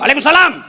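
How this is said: It is said in a loud, firm, harsh voice.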